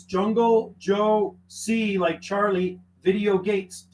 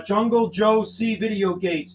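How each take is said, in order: First: Jungle spoken very slowly, each part set apart; slow spelled-out callsign. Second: Said in the usual way. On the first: Shown as a demonstration. Radio operator spelling his callsign for a caller, slowly. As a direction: spell it out slowly so they can copy it. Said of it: "With a C in the middle". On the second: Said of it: "Did you get that?".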